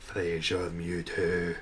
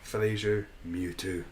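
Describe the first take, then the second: First: Slow, drawn-out announcement of Fraser Mewtwo; mock grand announcer. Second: Said in the usual way. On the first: Shown as a demonstration. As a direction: announce it like a movie trailer. Repeats the name for effect.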